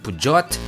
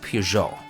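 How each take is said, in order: First: The name is said with an anglicized pronunciation. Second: The name is said with a French pronunciation. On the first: The speaker calls it wrong. "it's not Pujot" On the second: The speaker calls it right. "It's Peugeot"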